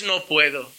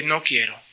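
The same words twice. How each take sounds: First: "no puedo" said low and soft; contrast stress. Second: "no quiero" low and soft, weight on "no"; contrast stress. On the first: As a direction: set "no puedo" aside, low and quiet. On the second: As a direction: land on "no quiero" quietly. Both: Shown as a demonstration. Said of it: "No es "no puedo", es "no quiero".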